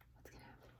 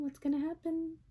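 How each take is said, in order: First: Soft suspense whisper. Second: Said in the usual way. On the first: A narrator's reading.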